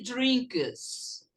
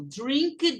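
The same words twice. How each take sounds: First: "drinks" with the final s drawn out and clear; stress on the s. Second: Said in the usual way. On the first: Shown as a demonstration. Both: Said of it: "eu coloco um S no verbo".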